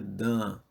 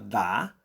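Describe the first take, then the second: First: The vowel is nasal. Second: The vowel is open and oral. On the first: "Se fosse nasal, seria" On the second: "D com A aberto forma dá"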